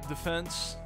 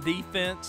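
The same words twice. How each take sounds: First: It is said the European way. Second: It is said the American way. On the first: "Do you pronounce it defense?" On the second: "Not not fucking defense like an American"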